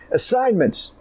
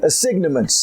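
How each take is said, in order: First: The word is said the ordinary everyday way. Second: The word is said literally, sounding each letter.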